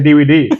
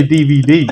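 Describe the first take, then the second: First: D V D slurred as "dee-wee-dee"; D V D in a lightly mocked foreign accent; mimicked pronunciation. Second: Said in the usual way. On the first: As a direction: say D V D with the V softened to a W. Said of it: "Stop fucking being racist". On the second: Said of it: "Just say D V D".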